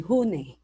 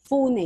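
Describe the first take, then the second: First: The word begins with an h sound. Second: The word begins with an f sound. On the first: "So sometimes they say hune" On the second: "Fune yon"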